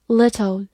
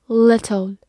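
The two takes are said the same way.

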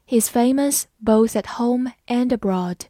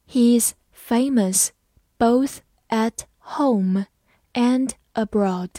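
First: Said in the usual way. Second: Slow, phrase by phrase; slow, chunked model reading. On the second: Shown as a demonstration. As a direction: read it slowly in chunks for the class. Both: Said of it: "慢慢来读".

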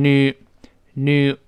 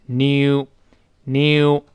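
First: American “new”, said as noo; American pronunciation. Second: British “new”, said as nyoo; British pronunciation. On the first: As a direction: drop the y glide in “new”. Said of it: "美式发音读成new". (“new”美式读法，不带“耶”音) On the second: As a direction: put a y glide inside “new”. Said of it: "英式发音有一个耶在里边". (“new”英式读法，带“耶”音) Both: Shown as a demonstration.

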